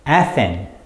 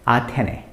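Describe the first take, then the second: First: It is said as two syllables ending in s. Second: It is said as three syllables, a-te-ne. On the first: "In English, the pronunciation is Athens" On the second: "You have to say it as Athene"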